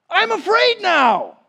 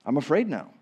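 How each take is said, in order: First: Higher, louder frightened cry; mock fearful disciple. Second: Said in the usual way. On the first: Disciples fearing being sent among wolves, mock fright. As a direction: play the scared disciple. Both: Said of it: "the disciples are thinking what you're thinking".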